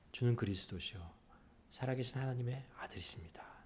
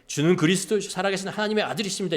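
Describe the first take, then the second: First: It is said softly in a small voice. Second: It is shouted boldly in a loud voice. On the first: The speaker confesses cautiously and humbly. "작은 목소리로" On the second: The speaker confesses with full confidence. "아주 당당하게 ... 이렇게 외쳤을까요?"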